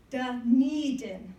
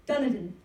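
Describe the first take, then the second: First: Dunedin said slowly as duh-NEE-din; corrected place name. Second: Dunedin said as DUN-uh-din, first syllable stressed; mispronounced place name. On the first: Newcomer sounding out Dunedin carefully as duh-NEE-din. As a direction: stretch and stress NEE in Dunedin. Then gives the name's correct pronunciation. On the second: Newcomer who had never heard of Dunedin, saying it DUN-uh-din. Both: Shown as a demonstration.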